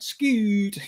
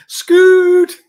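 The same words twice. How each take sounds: First: Scoot! in a mock Irish accent. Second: Laughing high shout of Scoot!; shouted name. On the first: Teasing co-host Scott by name, in mock Irish accent. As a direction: call Scoot! with a light Irish lilt. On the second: Pretend. Greeting Scott on air, a loud laughing shout. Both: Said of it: "With the Irish accent".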